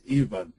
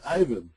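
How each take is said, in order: First: Ivan said with an "ee" at the start; EE-van pronunciation. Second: Ivan said with a long "eye" at the start; EYE-van pronunciation. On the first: Co-host contrasting two ways of a name, Ivan as EE-vən. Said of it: "or I said Ivan". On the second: Co-host clarifying a name he said, Ivan as EYE-vən. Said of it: "not I, Ivan". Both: Shown as a demonstration.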